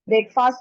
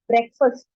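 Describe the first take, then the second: First: It has an 'ay' vowel and ends in 'fast'. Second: It has a short 'e' vowel and ends in 'fust'. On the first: The speaker calls it wrong. "इसको student generally बोलते हैं ब्रेकफास्ट" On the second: The speaker calls it right. "इसमें ए का sound नहीं आएगा, और जो फास्ट बोलते हैं उसको फर्स्ट बोलेंगे"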